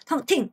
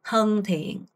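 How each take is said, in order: First: The syllables are cut short and clipped. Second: The syllables are drawn out and held long. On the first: The speaker calls it wrong. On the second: The speaker calls it right.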